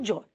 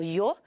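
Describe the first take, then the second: First: The word begins with a J-like sound. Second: The word begins with a soft Y-like sound. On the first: This is how it is said in most of Latin America. "na maioria da América, ele é pronunciado como J" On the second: This is how it is said in most of Spain. "na maior parte da Espanha, o Y... vai ser pronunciado como I"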